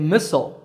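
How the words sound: It is said in an American accent. "Americans say missile"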